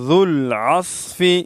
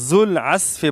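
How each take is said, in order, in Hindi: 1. इसमें नरम dh और भारी s है। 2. इसमें सादा z और सादा s है। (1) "ठीक तरीका है" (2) "अक्सर लोग जुल अस्फी पढ़ते हैं"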